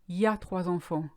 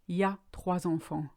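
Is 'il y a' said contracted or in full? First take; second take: contracted; contracted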